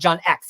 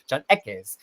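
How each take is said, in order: First: The surname sounds like the letter X. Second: The surname sounds like 'Ekes', not the letter. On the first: The speaker calls it wrong. "It's not John X. He's not like Professor Xavier" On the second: The speaker calls it right. "did I say it right this time?"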